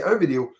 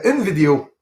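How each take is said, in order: First: "un vidéo" as said in Quebec; Quebec usage. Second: "une vidéo" as said in France; French usage. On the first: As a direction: say "un vidéo" with a nasal masculine "un". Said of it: "les Français ici au Québec, on dit". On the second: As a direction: stress the feminine "une" in "une vidéo". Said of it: "en France, vous dites". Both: Shown as a demonstration.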